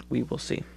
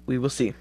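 First: Soft repeat to himself; quiet. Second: Said in the usual way. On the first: Real, not acted. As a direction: mutter it under the breath.

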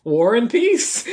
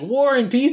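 First: Slow, rising, defiant name-drop; deadpan answer. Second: Higher, disbelieving question on War and Peace; incredulous. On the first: Layla answers Will's question with a slow, defiant name. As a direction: drop the name slowly like a challenge. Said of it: "And she goes". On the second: Will hears who her date is, in shocked disbelief. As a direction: repeat the name in shocked disbelief. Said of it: "he's like". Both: Acted.

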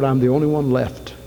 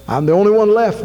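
First: Said in the usual way. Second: Higher and louder, crying out in despair; anguished outcry, much higher and louder; desperate cry. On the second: Retold or imitated. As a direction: throw the complaint up to heaven. Elijah's lament repeated.

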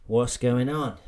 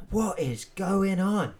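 First: Said in the usual way. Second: What is going on drawn out high and slow; slow, higher exasperated What is going on; stress on What. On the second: Shown as a demonstration. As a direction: stretch What is going on, leaning on What.

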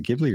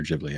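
First: "Ghibli" opening on a hard G sound; hard-G pronunciation. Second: "Ghibli" opening on a J sound, as in jib; soft-G pronunciation. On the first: Co-host unsure of the studio's name, offering "Ghibli" with a hard G. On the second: Co-host unsure of the studio's name, offering "Ghibli" with a soft J sound. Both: Shown as a demonstration. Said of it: "is it Ghibli or Ghibli".

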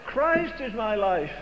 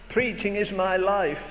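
First: "Christ" leaned on, the whole line slowed; slow down and hit "Christ"; stress on Christ. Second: Said in the usual way. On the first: Acted. Answering the quote, slow with "Christ" stressed. Counters the quote with his own.

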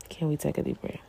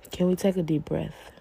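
First: Softer, settling repeat; soothing softer ask; calm and soft. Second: Said in the usual way. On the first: Shown as a demonstration. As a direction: ease them down gently.

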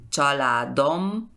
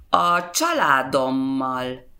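First: Családommal broken as családom, pause, mal; családommal with held m, then separate ending; split at suffix. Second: Said in the usual way. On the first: Shown as a demonstration. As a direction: say családommal in two parts, first part rising. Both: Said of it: "Esa es la regla con consonantes".

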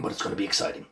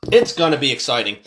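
First: Soft unvoiced whisper. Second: Said in the usual way. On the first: Shown as a demonstration. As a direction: breathe it as a whisper. Whispered, then repeated aloud.

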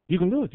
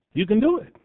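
First: Soft reassuring repeat. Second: Lifted encouragement. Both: Shown as a demonstration.

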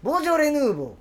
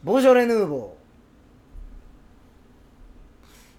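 First: ボジョレ・ヌーボー said briskly and higher, Kansai peak on ョ then falling; quick Kansai. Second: ボジョレ・ヌーボー stretched very slowly in a Kansai lilt, peak on ョ; slow Kansai-style ボジョレ・ヌーボー; drawn-out Kansai. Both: Shown as a demonstration. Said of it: "これでもこうですよね、関西弁".

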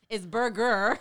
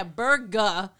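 First: "burger" slow, both R's sounded; "burger" with hard R. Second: "burger" said slowly as "burga"; mock the dropped R in burger; "burger" without the R. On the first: Retold or imitated. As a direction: correct it to a full burger. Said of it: "that accent is thick". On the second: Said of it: "He's like".

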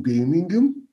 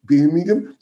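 First: Said in the usual way. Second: Put-on Birmingham accent. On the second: Shown as a demonstration. Commentator showing his Birmingham accent on the town's name, Brummie. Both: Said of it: "that's my Birmingham accent".

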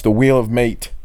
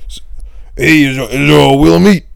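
First: Said in the usual way. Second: Loud hammed-up character bit call; Scorch. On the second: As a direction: belt out a bit title in a put-on voice. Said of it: "Scorch's old bit".

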